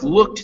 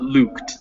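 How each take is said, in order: First: The vowel is short. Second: The vowel is long. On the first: The speaker calls it right. "so it's looked" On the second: The speaker calls it wrong. "not looked"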